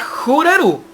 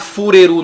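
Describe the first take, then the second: First: It begins with a soft, breathy h-like sound. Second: It begins with a clear f sound. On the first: The speaker calls it right. "É a Hureru" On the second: The speaker calls it wrong. "Não é a Fureru, não"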